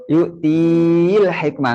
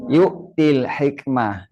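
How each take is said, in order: First: Yu'til hikmah with 'tiii' drawn out long; wrong long reading. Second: Yu'til hikmah with the 'ti' kept short; correct short reading. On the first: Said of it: "Nggak boleh dibaca". ("yu'til hikmah" salah baca, 'ti' dipanjangkan) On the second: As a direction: read yu'til hikmah without stretching the vowel before the l. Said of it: "Berarti bacanya". ("yu'til hikmah" dibaca pendek, tanpa mad) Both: Shown as a demonstration.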